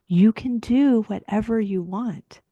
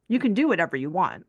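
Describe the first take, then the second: First: It sounds warm and sincere. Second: It sounds dismissive and sarcastic.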